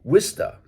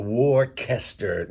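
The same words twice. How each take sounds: First: "Worcester" as two-syllable "WISS-tuh"; R-less local "Wista" for "Worcester"; local pronunciation. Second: "Worcester" as "wor-KESTER"; wrong pronunciation. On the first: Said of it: "It's pronounced Worcester". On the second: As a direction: say "Worcester" with a hard K in the middle. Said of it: "none of those". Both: Shown as a demonstration.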